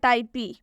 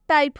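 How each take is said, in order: First: The word ends with an added ee sound. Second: The word ends on the p with no vowel. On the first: The speaker calls it wrong. "ना कि टाइपे या टाइपी" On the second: The speaker calls it right. "इसका सही उच्चारण टाइप होगा"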